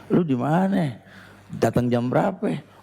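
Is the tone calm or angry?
calm. It is said in a calm, friendly tone.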